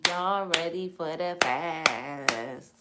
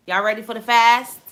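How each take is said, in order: First: Slow drawn-out call. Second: Loud, energetic hype call to the audience; rally the viewers like a hype host; hyped call-out. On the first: Host teasing viewers with a slow stretched-out call. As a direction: stretch every word out very slowly. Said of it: "host repeats call to viewers". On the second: Host hyping up her viewers with a loud call. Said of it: "host calling out to viewers". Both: Real, not acted.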